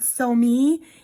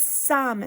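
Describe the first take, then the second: First: It is said as two separate syllables. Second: It is said as one single syllable. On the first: The speaker calls it wrong. "It's not so me" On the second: The speaker calls it right. "it's some"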